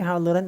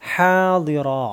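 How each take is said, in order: First: The word ends with an n sound. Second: The word ends on a vowel, without n. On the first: The reciter continues without stopping. "അല്ലെങ്കിൽ ഹാദിറൻ എന്ന് പറയണം" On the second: The reciter stops at this word. "ഇവിടെ നിർത്തുന്നതുകൊണ്ടാണ്"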